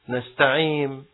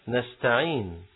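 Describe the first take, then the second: First: The word ends with an m sound. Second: The word ends with an n sound. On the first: The speaker calls it wrong. "بعضهم يقول نستعيم مثل مستقيم" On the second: The speaker calls it right. "بالنون"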